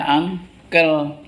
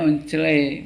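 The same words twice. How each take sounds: First: "uncle" said slowly as ang-kel; correct English reading. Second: "uncele" read letter by letter as written, un-che-le; spelling pronunciation. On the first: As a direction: pronounce "uncle" in two drawn-out syllables, ang-kel. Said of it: "bacanya uncle". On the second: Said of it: "Tulisannya uncele". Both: Shown as a demonstration.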